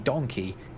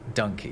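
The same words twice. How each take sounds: First: The first vowel sounds like the vowel in 'don'. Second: The first vowel sounds like the vowel in 'monkey'. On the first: This is the modern pronunciation. "we've ended up pronouncing donkey donkey" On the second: This is the older pronunciation. "instead of donkey"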